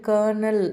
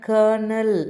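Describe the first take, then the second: Both takes have the same delivery.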